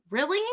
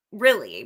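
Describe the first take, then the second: First: Really? pitched high and rising in disbelief; incredulous rising Really?. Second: Flat falling Really?. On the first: To commenters pitying Dylan, rising disbelieving Really?. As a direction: toss up a sharp, disbelieving Really?. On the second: Repeating to commenters, flat falling Really?. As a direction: drop Really? down flatly, done with it. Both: Real, not acted.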